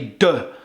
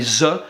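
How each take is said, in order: First: It begins with a d sound. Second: It begins with a z sound. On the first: "les Québécois they'll say de" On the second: "they'll say z"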